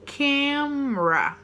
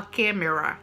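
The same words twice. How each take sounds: First: Camera said as KEM-ruh, very slow; slow correct pronunciation. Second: Camera in three syllables, KA-me-ra, Portuguese style; wrong pronunciation. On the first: Teacher shows students the right form, Camera as slow KEM-ruh. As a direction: Camera drawn out in two syllables. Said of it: "junta os lábios pra fazer o som do me". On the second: Teacher shows students the mistake to avoid, camera in three syllables. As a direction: camera with every vowel sounded. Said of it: "não fala camera". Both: Shown as a demonstration.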